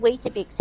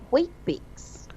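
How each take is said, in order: First: The word has three syllables, with the middle vowel. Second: The word has two syllables, without the middle vowel. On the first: This is the name as used elsewhere. "If you ask for Weetabix here, people will look at you oddly" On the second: This is the name as used locally. "here it is called Wheat-Bix"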